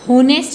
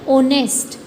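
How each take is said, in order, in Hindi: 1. यह शब्द h ध्वनि से शुरू होता है। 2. यह शब्द स्वर ध्वनि से शुरू होता है। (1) "होनेस्ट नहीं बोलते इसको" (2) "ह की साउंड नहीं आ रही है"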